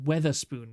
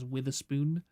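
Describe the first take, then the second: First: The first syllable sounds like 'weather'. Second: The first syllable sounds like 'with'. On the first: "the Weatherspoon rather" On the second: "some British people pronounce it as Witherspoon"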